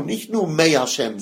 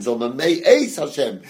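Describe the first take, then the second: First: Said in the usual way. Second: „Eis“ given extra weight as the key word; stress on EIS. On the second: Shown as a demonstration. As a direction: lean on „Eis“ in „May Eis Hashem“ to set it apart. (Betonung auf „Eis“) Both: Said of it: "die Betonung".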